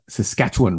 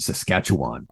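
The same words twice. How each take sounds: First: The word is squashed together and reduced. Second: The word is said fully with every syllable. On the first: This is how locals say it. "They like to say Saskatchewan" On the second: This is how outsiders say it. "rather than Saskatchewan"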